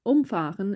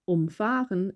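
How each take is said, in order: First: The stress is on the first syllable, um. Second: The stress is on the second syllable, fah. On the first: To run something over. "is separable" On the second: To drive around something. "is inseparable"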